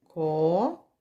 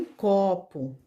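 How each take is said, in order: First: "copo" as long rising "co", long pause, "po"; split into syllables. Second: Said in the usual way. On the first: Shown as a demonstration. Teacher splitting a household word for children, "copo" syllable by syllable. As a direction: stretch "co", wait, then separate "po".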